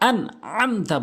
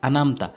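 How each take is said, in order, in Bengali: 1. মাঝের গলার বর্ণটি স্পষ্টভাবে উচ্চারণ করা হয়। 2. মাঝের গলার বর্ণটি বাদ দেওয়া হয়। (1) "আনআমতা বলতে হবে" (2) "এখানে অনেকেই ভুল করে বলে আনামতা"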